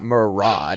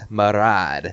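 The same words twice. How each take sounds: First: The R is plain, not rolled. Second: The R is rolled with a trill. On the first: The speaker calls it wrong. "it's not Marad" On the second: The speaker calls it right. "a lot of the R's in the Draenei names are rolled"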